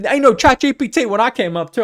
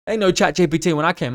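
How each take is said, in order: First: High, loud mock old-timer voice; old wizard voice. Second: Said in the usual way. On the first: Old wizard griping to young coders, hammed-up old-timer voice. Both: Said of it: "I sound like an old goddamn wizard".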